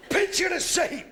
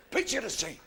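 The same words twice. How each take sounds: First: Loud call. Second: Said in the usual way. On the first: Shown as a demonstration.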